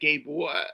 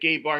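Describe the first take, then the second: First: It is said in a New York accent. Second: It is said in the speaker's plain accent.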